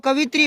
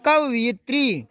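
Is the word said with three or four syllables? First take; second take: three; four. First: The word is said with three syllables. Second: The word is said with four syllables. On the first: The speaker calls it wrong. "इसको कवित्री मत बोलो" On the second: The speaker calls it right. "ऐसे बोलो कवयित्री"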